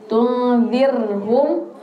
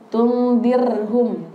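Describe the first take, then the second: No difference in how they are said.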